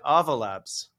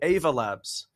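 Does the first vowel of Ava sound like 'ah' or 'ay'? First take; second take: ah; ay. First: The first vowel sounds like 'ah'. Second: The first vowel sounds like 'ay'. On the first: The speaker calls it right. "like lava" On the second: The speaker calls it wrong. "with a strong A"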